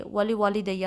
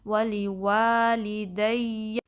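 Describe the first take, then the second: First: ولی والدیہ said quickly, the long vowel dropped; rushed wrong reading of ولی والدیہ; common mistake. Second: ولی والدیہ recited slowly, the second wa held for two counts; careful Quranic recitation of ولی والدیہ; correct tajweed. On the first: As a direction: clip the madd in ولی والدیہ short like normal speech. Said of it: "ایک common mistake ہے ... الف مدہ drop ہو جاتی". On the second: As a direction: stretch the madd in ولی والدیہ, slow and melodic. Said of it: "اس کو ٹو count stretch کرنا ہے". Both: Shown as a demonstration.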